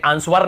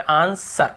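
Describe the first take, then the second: First: आंसर said as ans-war; wrong pronunciation. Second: आंसर slowly in two parts, an-sar; correct pronunciation. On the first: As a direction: sound the W in आंसर, ending in -war. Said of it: "वर नहीं पढ़ते". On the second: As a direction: draw out आंसर with the W silent. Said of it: "वर नहीं पढ़ते, आंसर". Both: Shown as a demonstration.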